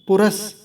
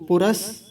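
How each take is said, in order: The two takes are said the same way.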